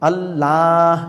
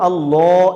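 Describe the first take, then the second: First: The L sound is light and thin. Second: The L sound is heavy and full. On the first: The speaker calls it right. "বরং আল্লাহ এরকম হবে" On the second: The speaker calls it wrong. "এরকম হবে না"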